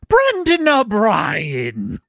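It is said with an Irish lilt.

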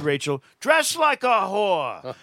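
It is said in the dad's voice.

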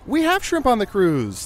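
It sounds excited and upbeat, like promising something good. Something delightful is coming. The speaker calls it right. "like you're in store for a treat"

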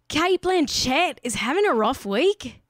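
It is said in an Australian accent. "Let me say that in an Australian accent"

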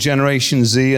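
The letter Z is said the British way, zed.

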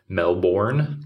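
The vowels are full, in an American accent. "the American, you know, way of saying it"

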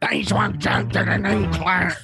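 It is said like a reality TV star.

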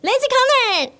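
It is said in a casual, everyday tone.

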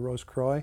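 It is said with an American-style pronunciation. "most Americans say"

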